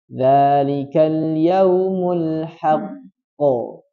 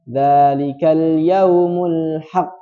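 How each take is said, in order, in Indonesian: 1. Q akhir ditahan, lalu dipantulkan. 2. Q akhir berakhir datar tanpa pantulan. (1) "Yang betul ditasydidkan baru dipantulkan" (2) "tidak diqalqalahkan bahkan"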